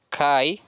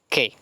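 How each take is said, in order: First: The word ends with an 'eye' sound. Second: The word ends with an 'eh' sound. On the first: The speaker calls it wrong. "muchos la pronuncian kai" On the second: The speaker calls it right. "se pronuncia que"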